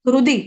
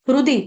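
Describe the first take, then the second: The two takes are said the same way.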